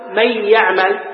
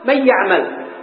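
First: The n merges into the y, keeping a nasal sound. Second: The n is pronounced clearly before the y. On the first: The speaker calls it right. "نأتي بصفة النون" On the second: The speaker calls it wrong. "نحن ما نقرأ من مظهرها ولا نقول من يعمل"

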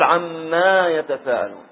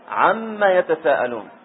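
First: The vowel after the doubled m is long. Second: The vowel after the doubled m is short. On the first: It means: about that which. The speaker calls it wrong. "ما تقول" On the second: It asks a question: about what. The speaker calls it right. "تقول"

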